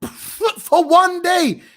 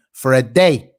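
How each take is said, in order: First: Slow, high, breaking into laughter; "For one day" dragged out slowly through laughter; laughing in disbelief. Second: Firm, punched repeat of "For a day"; "For a day" stressed, every word weighted; emphatic repeat. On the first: Real, not acted. Mocking the one-day suspension. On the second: Acted. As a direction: hit "For a day" hard so it lands as a jab. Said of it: "Yeah, yeah, you heard me".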